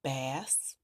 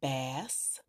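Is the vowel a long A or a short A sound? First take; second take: short A; short A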